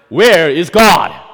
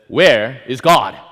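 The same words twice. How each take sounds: First: The question is asked loudest of all. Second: The question is asked a little louder. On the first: "Finally, with louder voice" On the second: "with a little louder voice"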